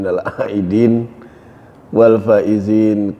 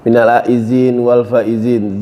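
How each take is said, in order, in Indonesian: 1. Huruf tengah pada 'aidin' bunyinya D. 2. Huruf tengah pada 'aidin' bunyinya Z.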